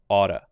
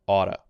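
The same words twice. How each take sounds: First: The middle consonant is a light D sound. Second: The middle consonant is a light D sound.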